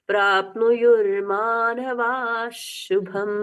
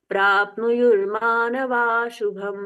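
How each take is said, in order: First: A slightly doubled sh is heard before shubham. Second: The middle sh is dropped, a single sh. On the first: The speaker calls it right. "हल्का सा double श जैसा उच्चारण होगा।" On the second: The speaker calls it wrong. "बीच का श मिट गया, ये नहीं करना है।"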